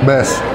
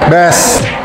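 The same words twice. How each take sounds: First: The word is said fairly softly. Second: The word is said loudly.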